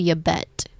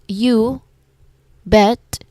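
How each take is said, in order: First: The two words run together as one unit. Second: The two words are said separately, not joined. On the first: The speaker calls it right. "but a seamless flow" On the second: The speaker calls it wrong. "it's not you bet"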